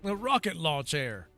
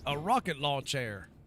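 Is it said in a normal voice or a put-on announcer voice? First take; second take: announcer voice; normal. First: It is said in the Metal Slug announcer voice. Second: It is said in his normal voice.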